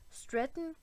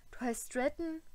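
First: Croaked question, pitched higher; shocked higher croak. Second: Croaking. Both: A narrator's reading. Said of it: "krächzte er".

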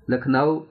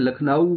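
First: لکھنؤ with a flat, unrounded واو; wrong Lucknow. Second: لکھنؤ with a clear, fully rounded واو; correct Lucknow. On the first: Teacher demonstrating the wrong لکھنؤ. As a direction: say لکھنؤ the wrong Urdu way, no rounding. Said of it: "لکھنؤ تو نہیں پڑھتے ہیں". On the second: Teacher giving students the right لکھنؤ. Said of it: "لکھنؤ کہتے ہیں". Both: Shown as a demonstration.

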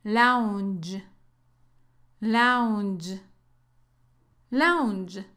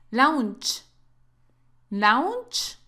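First: "lounge" ending in a soft voiced "dzh"; "lounge" with a gentle voiced ending. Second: "lounge" ending in a hard Spanish "ch"; "lounge" mispronounced "launch"; wrong ch ending. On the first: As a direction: end "lounge" softly, like the s in "measure" with a d. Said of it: "El sonido es suave". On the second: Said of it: "No es como la C H". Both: Shown as a demonstration.

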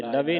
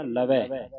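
First: "ਲਵੇ" ending in a close "ay" vowel; mistaken -e ending. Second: "ਲਵੈ" ending in an open "eh" vowel. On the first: Teacher shows students the mistake, "ਲਵੇ" with close -e. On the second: Teacher corrects the students' reading, "ਲਵੈ" with open -ai. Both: Shown as a demonstration. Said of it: "ਲਵੇ ਨਹੀਂ ਪੜ੍ਹਨਾ".

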